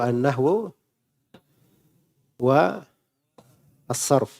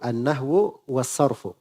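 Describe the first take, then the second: First: Each word is said separately, without linking. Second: The words run together as one linked phrase. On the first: "Itu kalau dipecah begitu ya" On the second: "Tapi kalau dibaca bersambung"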